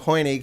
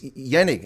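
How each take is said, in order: First: The word begins with an H sound. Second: The word begins with a Y sound. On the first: It is read as an English speaker would. "in English we'd look at it and go" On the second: It is said the Afrikaans way. "But in Afrikaans it's"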